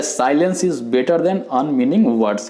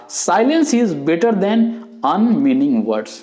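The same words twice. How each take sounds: First: Said in the usual way. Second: Very slow, higher and weighty; drawn-out quotation voice; solemn quote. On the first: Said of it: "इसलिए हो जाता है". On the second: Retold or imitated. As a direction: recite the famous saying slowly, each word set apart. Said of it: "जो Pythagoras ने बोला था".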